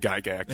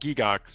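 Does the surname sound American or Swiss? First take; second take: American; Swiss. First: The name has its American pronunciation. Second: The name has its Swiss pronunciation. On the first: This is how it is said in the United States. "the Americans say Gygax" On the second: This is how it is said in the name's home country. "in Switzerland it's pronounced Gigax"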